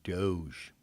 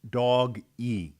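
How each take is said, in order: First: The word is said as one syllable. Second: The word is said as two syllables. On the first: The speaker calls it wrong. "it was mispronounced" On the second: The speaker calls it right. "They should have pronounced it Dog E"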